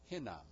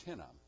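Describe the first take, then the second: First: Hinam said with a strong breathy H at the start; hard H Hinam. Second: Hinam with only a light, gentle breath on the H; soft H Hinam. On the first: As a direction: push air hard on the H of Hinam. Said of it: "pronounced with a hard H". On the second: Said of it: "with a soft H". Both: Shown as a demonstration.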